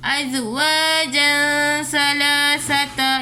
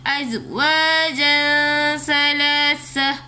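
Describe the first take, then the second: First: The last word ends in an 'ata' sound. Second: The last word ends in a plain 'ah' sound. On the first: The speaker calls it wrong. "Bukannya ... Ini salah" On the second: The speaker calls it right. "perlu dibaca seperti biasa"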